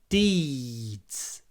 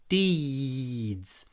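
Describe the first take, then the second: No difference in how they are said.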